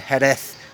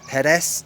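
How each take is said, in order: First: It is pronounced the Spain Spanish way. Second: It is pronounced the Mexican Spanish way. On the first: "is the Spain Spanish one" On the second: "that's the Mexican pronunciation"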